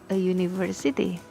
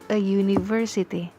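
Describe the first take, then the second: Both takes have the same delivery.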